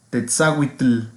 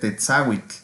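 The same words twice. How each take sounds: First: The final tl is said as separate t and l. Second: The final tl is one clicky affricate sound. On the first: The speaker calls it wrong. "en el otro dice Tetzahuitl" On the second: The speaker calls it right. "debe ser Tetzahuitl"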